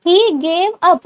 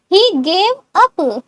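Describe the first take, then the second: First: Said in the usual way. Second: Very slow, word by word; slow model. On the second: Shown as a demonstration. Teacher first says the answer slowly to students. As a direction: drag it out for learners.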